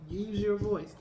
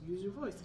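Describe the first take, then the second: First: Louder, pressing mock repeat of their advice; an emphatic mock nag, not a real yell; insistent retold urging. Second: Said in the usual way. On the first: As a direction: push it like someone who won't let up. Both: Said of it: "they kept saying".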